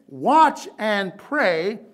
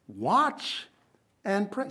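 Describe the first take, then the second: First: "Watch" loud and stretched slowly; slow, loud "Watch and pray"; stressed watch. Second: Said in the usual way. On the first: Shown as a demonstration. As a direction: hit "Watch" hard and slow. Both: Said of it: "Emphasis on the word".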